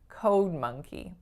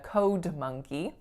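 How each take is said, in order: First: The D is held back, with no audible release. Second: The D is released strongly before the next word. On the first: The speaker calls it right. "you don't hear a strong release on that D" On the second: The speaker calls it wrong. "I'm not saying a code monkey. That would sound a bit cluttery"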